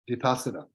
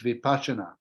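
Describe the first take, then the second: First: The word is said in its Pali form. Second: The word is said in its Sanskrit form. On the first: "the Pali language, it's Vipassana" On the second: "If you pronounce it in the Sanskrit, it's Vipassana"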